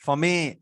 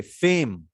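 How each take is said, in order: First: फमे said with the letters read out as two syllables; wrong pronunciation. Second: फेम said with a long "ay" vowel and a silent e; correct long vowel. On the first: Teacher shows how फेम should not sound. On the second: Teacher models the right vowel in फेम. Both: Shown as a demonstration. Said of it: "ऐसा नहीं बोल रहे हैं आप".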